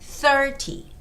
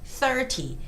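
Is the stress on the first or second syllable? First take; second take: first; first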